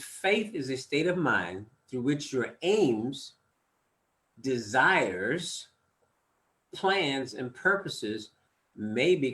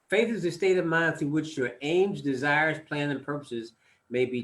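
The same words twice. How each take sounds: First: It is read slowly. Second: It is read at normal speed.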